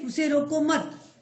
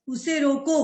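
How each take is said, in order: First: "उसे रोको मत" slow, as one phrase ending on मत; pause after मत. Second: "उसे रोको" set apart, with रोको prominent; pause after रोको. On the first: Teacher showing the wrongly placed comma, stop after मत. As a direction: join रोको to मत and stop there. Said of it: "मत के बाद कर दे". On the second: Teacher showing the comma after the verb, stop on रोको. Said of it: "रोको के बाद अगर हम अर्ध विराम लगा दे रहे हैं". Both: Shown as a demonstration.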